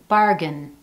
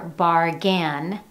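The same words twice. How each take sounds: First: The last syllable has a reduced uh vowel. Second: The last syllable has a full vowel. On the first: The speaker calls it right. "you hear bargain" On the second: The speaker calls it wrong. "you don't hear bargain"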